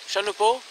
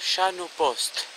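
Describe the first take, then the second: First: The final consonants of the name are silent. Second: The final consonants of the name are pronounced.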